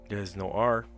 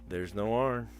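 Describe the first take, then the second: Both takes have the same delivery.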